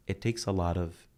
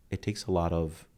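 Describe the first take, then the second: No difference in how they are said.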